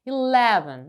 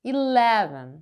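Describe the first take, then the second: No difference in how they are said.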